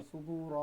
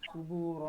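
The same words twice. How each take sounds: No difference in how they are said.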